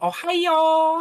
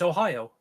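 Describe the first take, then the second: First: It is said the Japanese way, as a greeting. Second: It is said the American way, as the state. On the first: "Japanese half is uh, is the half that pronounces the A, because they go Ohio" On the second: "American half is just like, yeah, it's Ohio"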